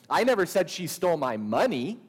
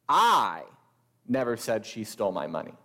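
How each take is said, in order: First: The word money is stressed. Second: The word I is stressed.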